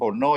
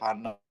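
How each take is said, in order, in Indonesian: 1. Vokalnya terdengar seperti 'o' yang membulat. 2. Vokalnya terdengar seperti 'a' terbuka. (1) "Kalau di Jawa mungkin Hono ya" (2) "kalau di Bali itu ... Hana itu dibaca Hana"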